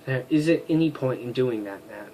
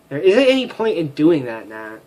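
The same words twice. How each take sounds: First: Said in the usual way. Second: Louder, more insistent refusal; firmer retake. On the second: Shown as a demonstration. To Nat, a firmer louder refusal. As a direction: push the line harder. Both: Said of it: "I keep making her sound like this".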